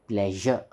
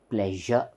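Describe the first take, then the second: Both takes have the same delivery.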